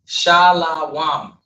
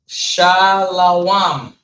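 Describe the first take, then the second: First: It is said as three syllables, sha-la-wam. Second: The same.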